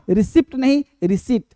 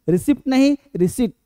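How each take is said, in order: No difference in how they are said.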